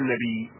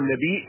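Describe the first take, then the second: First: The word ends in a plain long vowel. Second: The word ends with a glottal stop. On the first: "وترك الهمزة هو المختار" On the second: "النبي لغة من النبي من همزة"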